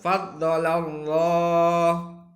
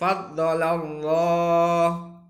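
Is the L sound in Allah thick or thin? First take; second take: thick; thick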